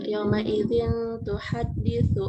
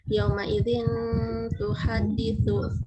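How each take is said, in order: First: The n is held with a nasal hum. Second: The n is pronounced quickly and clearly. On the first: The speaker calls it right. "agak didengungkan di sini" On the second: The speaker calls it wrong. "agak terlalu cepat di sini, jadi kayak semacam izhar"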